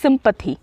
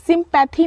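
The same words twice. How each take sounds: First: सिंपैथी with a short schwa, "SIM-puh-thee"; correct pronunciation. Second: सिंपैथी with an open, full "pa" in the middle; wrong pronunciation. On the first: Teacher correcting for students, सिंपैथी said with a weak middle vowel. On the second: Teacher rejecting a misreading, सिंपैथी said with a full middle vowel. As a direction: stretch the middle vowel of सिंपैथी, "sim-PAA-thee". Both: Shown as a demonstration. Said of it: "सिंपैथी नहीं".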